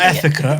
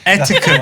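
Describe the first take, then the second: First: The word is said with a lisp. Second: The word is said with clear sounds. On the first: The speaker calls it wrong. "Hiran's discovered a lisp" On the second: The speaker calls it right. "Etiquette, not etiquette"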